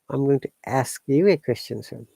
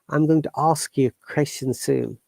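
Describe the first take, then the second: First: Ask has a flat front 'a' vowel. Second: Ask has a broad open 'ah' vowel. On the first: "they say a sound" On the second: "We'll say ah, ah sound"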